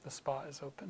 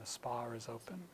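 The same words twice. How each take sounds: First: No R sound links spa and is. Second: An R sound links spa and is. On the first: "the American accent would have no R there" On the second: "in a British accent, again, ... So a little bit of an R sound between them"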